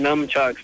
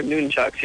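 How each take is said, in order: First: "numchucks" with short u and m, NUM-chucks; common mispronunciation. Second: "nunchucks" with long oo and n, NOON-chucks; corrected pronunciation. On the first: Caller citing what everybody says, "numchucks" as NUM-chucks. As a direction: say "numchucks" starting like "numb". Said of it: "everybody calls them numchucks". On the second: Caller confirming the host's version, "nunchucks" as NOON-chucks. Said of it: "but they're not numchucks". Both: Shown as a demonstration.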